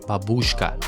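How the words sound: It is said the way English speakers say it. The speaker calls it wrong. "English speakers often read it as babushka"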